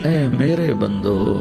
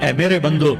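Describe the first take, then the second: First: It is said in a warm, tender tone. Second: It is said in a plain, detached tone. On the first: The speaker calls it right. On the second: The speaker calls it wrong.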